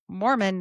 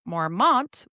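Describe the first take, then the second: First: The word ends without a t sound. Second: The word ends with a t sound. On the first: The speaker calls it right. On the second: The speaker calls it wrong. "not Mormont"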